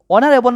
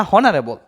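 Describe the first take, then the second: First: অনারেবল with silent h, opening on o; stressed vowel-first start on অনারেবল; correct pronunciation. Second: হনারেবল with the h sounded; audible h at the front of হনারেবল; wrong pronunciation. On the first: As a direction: say অনারেবল as "onarebol". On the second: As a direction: say হনারেবল as "honarebol". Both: Shown as a demonstration. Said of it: "ও উচ্চারণ হইতেছে".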